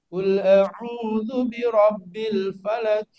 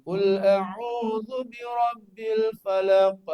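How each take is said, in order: First: Falak said flat, the qaf not bounced; slow chant of "falak" with no echo on the qaf; wrong recitation. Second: The qaf in "falak" bounced with a clear echo; slow chant, the final "falak" ends on a bounced qaf; correct qalqalah. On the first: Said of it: "Itu namanya bisa ngaji tapi nggak benar". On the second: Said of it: "Harusnya qafnya dipantulin". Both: Shown as a demonstration.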